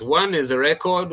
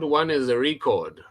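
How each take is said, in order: First: Record as a noun, stress on REC: "REC-ord". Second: Record as a verb, stress on CORD: "re-CORD". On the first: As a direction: say "record" with the stress on the first syllable. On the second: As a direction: say "record" with a short ri- and the stress on the second syllable. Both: Shown as a demonstration. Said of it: "So there are two words".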